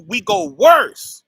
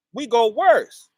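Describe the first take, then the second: First: Louder, slow and higher, hammering the word worse; emphatic declaration. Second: Said in the usual way. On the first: Real, not acted. Preacher telling the congregation how we fell, loud and slow. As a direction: drop it like a verdict on worse.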